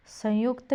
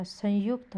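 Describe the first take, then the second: First: संयुक्त as "sayukta", nasal weakened; misspelling read out. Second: Said in the usual way. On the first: Shown as a demonstration. Teacher showing a misspelling, nasal missing. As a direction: drop the "n" in संयुक्त. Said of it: "नहीं होता". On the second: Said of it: "होता है".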